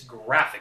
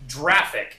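First: The word begins with a hard g sound. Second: The word begins with a soft j-like sound. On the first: The speaker calls it right. "It's graphic" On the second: The speaker calls it wrong. "graphic is not pronounced graphic"

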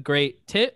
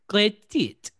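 First: It is said in the speaker's plain accent. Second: It is said in a put-on French accent.

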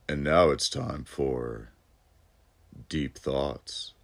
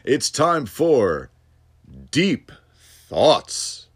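First: It is said in a put-on sexy voice. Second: It is said in a plain voice.

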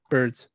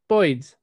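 First: The vowel is a plain 'er' sound. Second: The vowel is an 'oi' sound.

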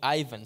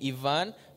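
First: The name is said with an Australian English pronunciation. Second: The name is said with a Chilean Spanish pronunciation. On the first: This is how Australian friends say it. "all my Aussie friends and people, he call me Ivan" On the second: "all my Chilean and Latinos friends, they call me Ivan"

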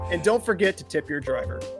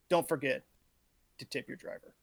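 First: It is said with lively charisma and feeling. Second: It is said flatly, without much feeling.

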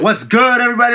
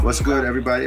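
First: It is said with high energy. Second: It is said with low energy.

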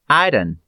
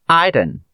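First: The final T sound is dropped. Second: The same.

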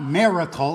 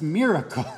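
First: The first syllable sounds like 'mar'. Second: The first syllable sounds like 'mir'. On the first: The speaker calls it wrong. "it's not miracle" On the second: The speaker calls it right. "it's miracle"

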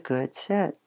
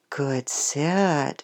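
First: The praise is said quietly and very calmly. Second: The praise is said warmly, with heartfelt feeling. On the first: The praise keeps the puppy calm and focused. "sometimes it's just really calm" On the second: The praise is sincere and affectionate. "sometimes it's warm and heartfelt"

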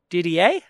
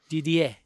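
First: The name is said with an Australian pronunciation. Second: The name is said with a French pronunciation. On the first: "But Australian" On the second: "That's the French"

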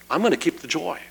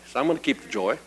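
First: It is said with lively enthusiasm. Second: It is said plainly, without extra enthusiasm.

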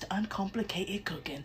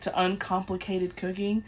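First: It is said in an imitated British accent. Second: It is said in the speaker's ordinary accent.

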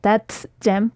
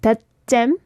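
First: The final T of 'that' is audibly released. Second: The final T of 'that' is held, not released. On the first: The speaker calls it wrong. "we don't say like that gem" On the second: The speaker calls it right. "not releasing the T sound"

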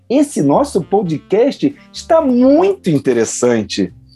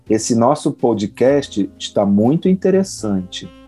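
First: It is said in a happy tone. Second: It is said in an unenthusiastic tone.

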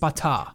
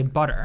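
First: The final R sound is dropped. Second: The final R sound is clearly pronounced. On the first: "they don't pronounce the R. It's like butter" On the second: "Irish and American accents both will say butter"

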